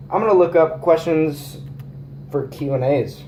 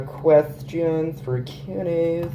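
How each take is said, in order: First: Said in the usual way. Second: Slow, stretched-out search phrase; drawn-out words. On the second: Real, not acted. Looking up questions for Q and A's, slowly drawn out. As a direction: say it slowly as if typing it. Says the search while typing it.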